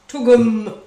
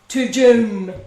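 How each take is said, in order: First: The middle consonant is a hard g. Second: The middle consonant is a j sound. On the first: The speaker calls it right. "That's very important" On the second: The speaker calls it wrong. "Pronounces it Toojum"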